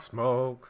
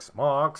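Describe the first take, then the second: First: "smoke." with a long rounded oh vowel; smoke pronunciation. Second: "smoke" said as smock, short open o; smock pronunciation. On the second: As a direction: say "smoke" like smock, clipped vowel. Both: Shown as a demonstration. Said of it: "I believe you mean smoke".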